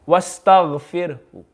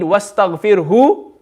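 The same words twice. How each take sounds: First: The final vowel is only faintly sounded. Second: The final vowel is sounded fully. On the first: The reader is stopping with a partial vowel. "If they read one third" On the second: The reader is stopping with the whole vowel. "then this is wrong"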